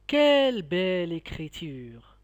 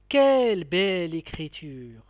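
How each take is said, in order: First: "Quelle belle écriture!" stressing Quelle, exclaiming in admiration; admiring exclamation. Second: "Quelle belle écriture!" louder, Quelle punched then falling; admiring exclamation. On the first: Teacher showing pupils an exclamation, admiring. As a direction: marvel at the handwriting. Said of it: "un sentiment de la joie, d'étonnement ou bien d'admiration". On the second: Teacher repeating the exclamation, louder admiration. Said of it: "Je répète". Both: Shown as a demonstration.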